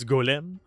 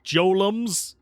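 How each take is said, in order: First: The word begins with a hard G sound. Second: The word begins with a soft J sound. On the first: "It's Golem" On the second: "I have to pronounce it Jolems for reasons"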